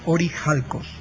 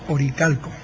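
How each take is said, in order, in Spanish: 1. La consonante del medio es una h aspirada. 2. La consonante del medio es una k fuerte. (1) "en griego es orijalcos"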